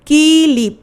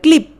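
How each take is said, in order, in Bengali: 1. ক আর ল-এর মাঝে একটি ই স্বরধ্বনি ঢোকানো হয়। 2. ক আর ল স্বরধ্বনি ছাড়া একসাথে যুক্ত হয়ে থাকে। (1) "ক এর পরে একটা ই ধ্বনি আসছে" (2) "আগে ছিল ক্লিপ"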